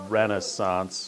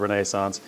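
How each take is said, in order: First: The word has an American pronunciation. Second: The word has a British pronunciation. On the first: "because y'all are here in America, and it's Renaissance" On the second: "When you've had as many British professors as I have, it's the Renaissance"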